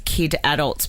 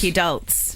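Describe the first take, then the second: First: It is said as two separate words. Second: It is said as one blended word. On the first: The speaker calls it wrong. "I was pronouncing it as kid adults" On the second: The speaker calls it right. "they're calling it"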